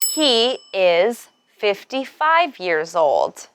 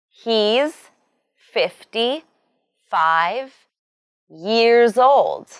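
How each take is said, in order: First: The first two words are said separately. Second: The first two words are contracted into one. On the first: "the full forms he is" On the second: "the short forms"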